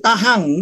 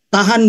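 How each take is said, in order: First: The word ends with an ng sound. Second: The word ends with a plain n sound.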